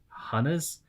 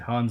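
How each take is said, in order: First: The name is said with two syllables. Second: The name is said with one syllable. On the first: "similar to the word harness, but without, without the R" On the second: "I've always said Hans"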